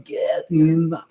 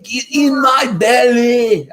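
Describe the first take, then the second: First: Scottish accent attempt. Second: High hammed-up Scottish accent, shouted slowly; a bad Scottish growl, loud and drawn out. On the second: Dad trying a Scottish accent for the kids, bad and loud Scottish shout. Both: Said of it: "I can't do a very good Scottish accent".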